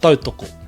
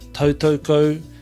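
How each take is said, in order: First: The o vowels are short and pure. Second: The o vowels sound like an English 'oh'. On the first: The speaker calls it right. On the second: The speaker calls it wrong.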